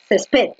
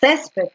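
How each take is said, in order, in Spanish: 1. El acento está en la última sílaba. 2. El acento está en la primera sílaba.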